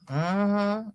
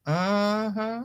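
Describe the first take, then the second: No difference in how they are said.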